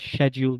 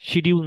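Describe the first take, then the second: First: It begins with a 'shya' sound. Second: It begins with a 'shi' sound. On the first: The speaker calls it right. "বলেন শ্যাডিউল" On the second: The speaker calls it wrong. "এটাকে শিডিউল না বলে"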